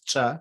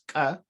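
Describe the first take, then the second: First: The letter is said with a ch sound. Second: The letter is said with a k sound. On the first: "I say it as ch" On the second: "you can say this letter like Ahmed said it as ka, which is acceptable"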